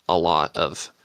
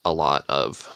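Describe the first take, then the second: No difference in how they are said.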